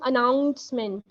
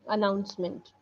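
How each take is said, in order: First: The middle syllable is said with heavy emphasis. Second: The middle syllable is said lightly. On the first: The speaker calls it wrong. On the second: The speaker calls it right.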